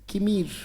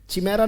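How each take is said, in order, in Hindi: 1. शब्द 'k' ध्वनि से शुरू होता है। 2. शब्द 'ch' ध्वनि से शुरू होता है। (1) "इट इज किमीर" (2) "चिमेरा नहीं बेटा"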